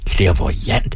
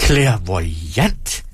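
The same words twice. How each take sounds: First: Musing, understated question; thoughtful, tolerant. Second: Drawn-out word with a rising end; incredulous echo. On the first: A narrator's reading. Performer gently queries the woman's claim, thoughtful. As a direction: ponder the word with feigned tolerance. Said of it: "udstråler eftertænksomhed og tolerance". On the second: Acted. Performer seizes on her claim, incredulous. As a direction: stretch CLAIRVOYANT into delighted disbelief.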